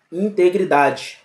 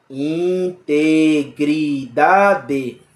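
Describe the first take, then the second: First: Said in the usual way. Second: "Integridade" drawn out very slowly, in-te-gri-da-de, every syllable apart; split into syllables. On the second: Shown as a demonstration. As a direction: stretch "Integridade" into five slow, separate syllables. ("Integridade" bem devagar, sílaba por sílaba) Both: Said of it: "Quantas sílabas?".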